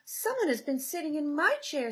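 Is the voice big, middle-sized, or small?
middle-sized. It is said in a middle-sized voice.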